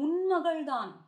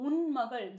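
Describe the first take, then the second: First: Loud, high, exasperated retort with loving anger; upset scolding. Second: Said in the usual way. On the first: Retold or imitated. Andal scolding the mother of the sleeping girl, loud loving anger. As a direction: scold her like a fond but fed-up friend. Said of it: "Andal certainly gets upset". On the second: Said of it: "The word un magal here".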